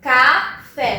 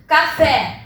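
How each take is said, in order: First: Café broken into "ca", "fé", slightly drawn out; teacher separating café as "ca... fé"; split into syllables. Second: Said in the usual way. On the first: Shown as a demonstration. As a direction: say café syllable by syllable, each one distinct. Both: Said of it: "quando eu separo a sílaba".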